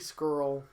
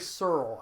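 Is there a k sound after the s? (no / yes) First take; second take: yes; no. First: The name is said with a k sound. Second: The name is said without a k sound. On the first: The speaker calls it right. "but it's Marty Scurll" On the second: The speaker calls it wrong. "I would always forget the C"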